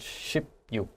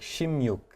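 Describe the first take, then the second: First: Each part is said separately, as on its own. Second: The two parts blend, changing the middle sounds. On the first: This simply joins the two number words. "not so much" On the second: This is how it is actually said in speech. "it sounded more like"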